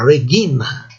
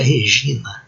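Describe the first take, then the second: First: The g is a hard stop sound. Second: The g is a soft palatal sound. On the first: The speaker calls it right. "é Regina" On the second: The speaker calls it wrong. "não é Regina"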